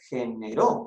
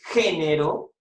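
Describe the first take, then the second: First: The stress falls on the last syllable. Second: The stress falls on the first syllable. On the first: It refers to an action someone did. "esto se refiere a una acción" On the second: It refers to masculine and feminine gender. "esto se refiere a masculino femenino"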